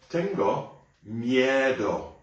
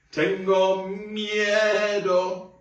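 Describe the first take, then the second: First: Sung phrase. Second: High, slow, hammed-up scared wail; be a bit silly, pretend to be scared; silly mock fear. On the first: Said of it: "Next one". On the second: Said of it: "say it like I am afraid". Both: Shown as a demonstration.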